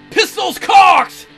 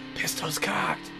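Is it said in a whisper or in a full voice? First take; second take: full voice; whisper. First: It is said in a full, loud voice. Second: It is said in a whisper.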